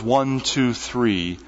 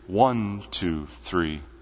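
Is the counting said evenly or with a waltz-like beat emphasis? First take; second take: even; waltz. First: The three numbers are counted with plain, even emphasis. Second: The numbers are counted with a lilting waltz-beat emphasis.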